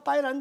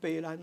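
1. 这个词用普通话说。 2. 这个词用台语说。

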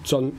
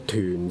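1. 这个音节读 zeon。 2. 这个音节读 tyun。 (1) "我哋所讀咧就叫水雷津，就唔係讀團嘅" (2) "我哋見到有個團字"

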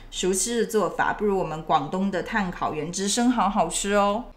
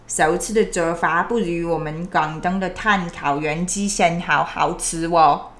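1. 这段普通话是标准口音。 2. 这段普通话有很重的广东口音。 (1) "我用标准普通话给你们说一遍" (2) "怕你们听不懂我的广东普通话"

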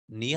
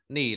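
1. Âm tiết "ni" có thanh sắc, giọng đi lên. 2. Âm tiết "ni" có thanh hỏi, giọng thấp và gãy. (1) "hai thanh ba đi liền nhau, thanh ba trước thì đọc thành thanh hai" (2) "Nỉ là bạn"

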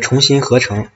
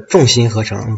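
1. 第一个字读作 chong。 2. 第一个字读作 zhong。

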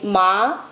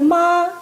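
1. Тон піднімається від середнього до високого. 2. Тон тримається високо і рівно. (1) "Другий тон буде висхідний" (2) "Ми можемо сказати «ма»"

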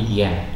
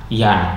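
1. Vokalnya adalah bunyi "e" yang lebih tertutup. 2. Vokalnya adalah bunyi "a" terbuka. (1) "tapi yen" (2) "bukan yan"

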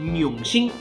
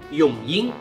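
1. 第二个字的读音像普通话。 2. 第二个字的读音是上海话的。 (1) "他读的好像是永兴，那其实呢是有点错误的啊" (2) "荣幸应该是永英"

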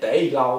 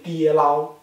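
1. 第一个音节保留了单字的元音，像 day。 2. 第一个音节的元音变了，像 dieh。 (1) "它不念day 捞" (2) "它念跌捞"

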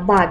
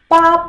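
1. Слог произносится легко, без тона. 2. Слог произносится на высоком ровном тоне. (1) "Это ба без тона" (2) "Звучит она как па первым тоном"

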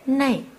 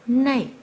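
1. Nguyên âm kết thúc bằng âm lướt 'ee'. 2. Nguyên âm kết thúc bằng âm lướt 'ee'.

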